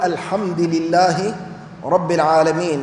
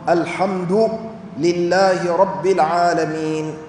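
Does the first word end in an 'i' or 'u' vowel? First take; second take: i; u. First: Alhamd ends with an 'i' vowel. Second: Alhamd ends with a 'u' vowel. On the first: The speaker calls it wrong. "بعض الناس يكسر كلمة الحمد" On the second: The speaker calls it right. "فالقراءات كلها بالضم"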